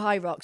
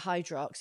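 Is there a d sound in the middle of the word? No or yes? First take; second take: no; yes. First: It is said with no d sound. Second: It is said with a d sound. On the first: The speaker calls it right. "When you do High Rocks" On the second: The speaker calls it wrong. "people call it Hydrox, it's like somebody scraping nails down a chalkboard"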